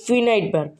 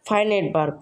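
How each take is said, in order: First: The first vowel is a short 'i' sound. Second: The first vowel is a long 'eye' sound. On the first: The speaker calls it wrong. "কিন্তু আমরা সবসময় উচ্চারণ করে থাকি" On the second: The speaker calls it right. "এটা ভালো উচ্চারণ হলো"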